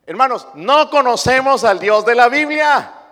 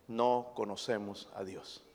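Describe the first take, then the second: First: Loud, high, each word hammered; the same line, now thundered from the pulpit; preached out loud. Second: Quiet, low statement. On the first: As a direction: proclaim it to the whole church. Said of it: "pero no conocemos al Dios". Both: Acted.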